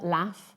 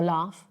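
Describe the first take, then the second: First: It has a short northern-style vowel. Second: It has a long southern-style vowel.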